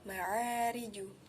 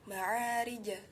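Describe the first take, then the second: First: The final j bounces toward a u vowel. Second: The final j bounces toward an a vowel. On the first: "atau ma'ariju" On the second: "Tidak boleh kita mengucapkan ma'arija"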